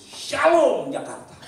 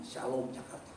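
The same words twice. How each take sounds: First: "Shalom Jakarta" slow, high and loud; bold proclamation. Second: Said in the usual way. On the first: Acted. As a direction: proclaim it in faith. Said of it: "saya tulis". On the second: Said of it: "kita harus berkata dengan iman".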